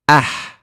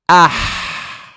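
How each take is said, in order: First: The final breath is short and light. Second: The final breath is long and strongly pushed out. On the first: "without exaggerating, you just say ah" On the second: "I'm exaggerating the ha, letting the breath out so you guys can see"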